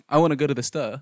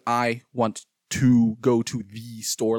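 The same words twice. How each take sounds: First: The small words are reduced to schwa vowels. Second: The small words keep their full, long vowels. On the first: "But I use the same, sound is one of the easiest sounds to make" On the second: "like all these are longs"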